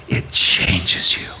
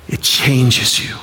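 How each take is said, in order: First: Hushed whisper, slowed down. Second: Said in the usual way. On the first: Acted. Preacher drives home the point to the congregation, whispered. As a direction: breathe It changes you almost silently. Preacher repeats key line.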